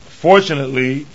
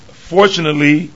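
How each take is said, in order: Both takes have the same delivery.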